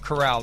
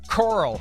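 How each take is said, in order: First: It does not sound like the word coral. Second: It sounds like the word coral. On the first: The speaker calls it right. "instead of Corral" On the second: The speaker calls it wrong. "I don't know why my brain wants to say Coral"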